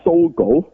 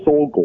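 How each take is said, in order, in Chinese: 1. 这个名字用英文发音。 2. 这个名字用日文发音。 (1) "英文仲唔係Sogo" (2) "如果你用日文發音咪Sogo"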